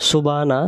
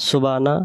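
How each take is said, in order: Both takes have the same delivery.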